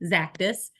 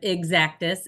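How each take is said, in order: First: The name starts directly with a Z sound. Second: The name starts with an 'ex' sound. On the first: The speaker calls it right. "think about cactus with a Z" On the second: The speaker calls it wrong. "We hear a lot of exactus"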